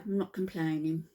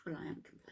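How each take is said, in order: First: Said in the usual way. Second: Very soft, voiceless admission under the breath; whispered aside. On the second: Real, not acted. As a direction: whisper it as a sly confession. Hushed aside admitting the opposite.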